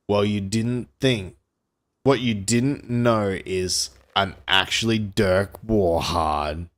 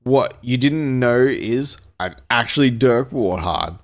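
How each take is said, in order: First: Lightly voiced cool action hero; slow, deliberate reveal of who he is; understated tough-guy line from a pulp novel; action-hero one-liner. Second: Mild storybook yell, held back; understated action-hero shout; attempted yell. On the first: Hero's one-liner read aloud. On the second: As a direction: read the one-liner a little more forcefully. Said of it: "Dirk Warhard attempted to yell". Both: A narrator's reading.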